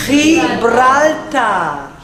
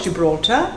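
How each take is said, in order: First: "Gibraltar" drawn out, with a throaty H for the G; Spanish pronunciation. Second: Said in the usual way. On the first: Shown as a demonstration. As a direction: say "Gibraltar" the Spanish way, slowly, starting "khee". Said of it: "it is called". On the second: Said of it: "It is not called Gibraltar".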